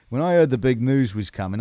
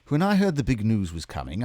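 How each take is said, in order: First: It is spoken in a Cockney accent. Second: It is spoken in a Mid-Atlantic accent. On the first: "I'll just do a cockney" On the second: "I feel like I'm just doing Mid Atlantic every time"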